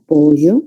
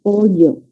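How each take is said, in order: First: "Pollo" with LL said like Y, PO-yo; coastal yeísmo. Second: "Pollo" with a true palatal LL, PO-llo, tongue flat on the palate; Andean LL. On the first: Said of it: "tenemos el fenómeno de yeísmo". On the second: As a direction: Andean "Pollo", LL kept apart from Y. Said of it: "en la zona andina sí diferencian ese sonido". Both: Shown as a demonstration.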